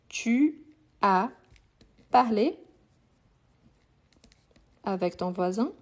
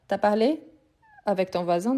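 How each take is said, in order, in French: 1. 'Tu' se dit en entier devant 'as'. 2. La voyelle de 'tu' tombe devant 'as'. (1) "pour écrire, on va écrire" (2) "quand on parle, on dit t'as"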